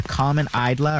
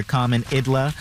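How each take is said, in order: First: Eidla said as EYE-dla; long-I Eidla. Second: Idla said as ID-la; short-i Idla. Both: Shown as a demonstration. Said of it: "common Eidla or common Idla".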